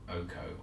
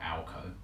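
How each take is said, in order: First: The name begins with an 'oh' sound. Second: The name begins with an 'al' sound. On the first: "not Oko" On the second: "or Alco"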